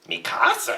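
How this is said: It is said with incredulous, scornful disbelief.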